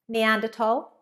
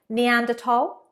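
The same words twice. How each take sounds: No difference in how they are said.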